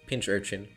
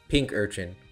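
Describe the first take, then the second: First: The first part ends with a ch sound. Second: The first part ends with a k sound. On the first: "Or is it like Pinch?" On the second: "Pink Urchin, is that right?"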